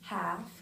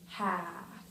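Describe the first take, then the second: First: The vowel is short and plain. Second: The vowel is longer and further back. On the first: "instead of saying the word half" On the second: "So it's like a longer A"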